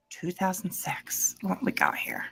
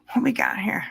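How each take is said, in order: First: Hushed What we got here, breathed with no voice; whisper. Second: Said in the usual way. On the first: Acted. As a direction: whisper it like a secret. Reading rap sheet aloud.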